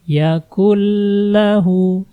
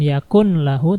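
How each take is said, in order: First: The n sound merges fully into the l. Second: The n sound is clearly pronounced before l. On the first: The speaker calls it right. "tapi langsung masukkan ke lam" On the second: The speaker calls it wrong. "Jangan dibaca nunnya. Jangan yakun lahu"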